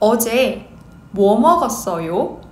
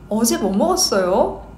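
First: It is said at a normal speed. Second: It is said at a quick speed.

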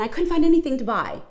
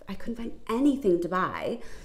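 First: It is said in a rushed, frantic way. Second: It is said in a slow, calm way. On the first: The speaker calls it wrong. "those manic gestures, those movements that stress you out" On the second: The speaker calls it right. "I'm just slowing my movements down"

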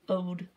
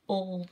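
First: The word is said without an L sound. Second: The word is said with an L sound. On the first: "old was owed" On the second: "instead of OLD"

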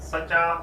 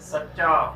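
First: The middle consonant is short and said once. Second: The middle consonant is held long and doubled. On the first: The speaker calls it wrong. "ਇਸ ਨੂੰ ਅਸੀਂ ਸੱਚਾ ਨਹੀਂ ਉਚਾਰਨ ਕਰਨਾ, ਇਹ ਇਸ ਦਾ ਗਲਤ ਉਚਾਰਨ ਹੈ" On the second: The speaker calls it right. "ਸੱਸੇ ਨੂੰ ਉੱਤੇ ਆਦਕ, ਚੱਚੇ ਨੂੰ ਪੰਨਾ, ਇਸ ਦਾ ਸਹੀ ਉਚਾਰਨ ਬਣਦਾ ਹੈ"

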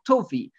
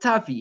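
First: The first vowel is an 'o' sound. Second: The first vowel is an 'a' sound.

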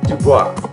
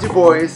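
First: The name is said with a French pronunciation. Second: The name is said with a non-French pronunciation. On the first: The speaker calls it right. "the French pronunciation" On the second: The speaker calls it wrong. "Not Duboise"

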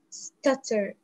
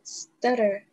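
First: It is said in a British accent. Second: It is said in an American accent.

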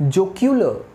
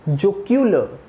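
No difference in how they are said.

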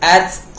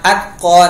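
First: The stopped t releases an audible puff of air. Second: The stopped t has no audible air release. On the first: The speaker calls it right. "เวลาตายจะต้องมีเสียงลม" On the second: The speaker calls it wrong. "ไม่ใช่"

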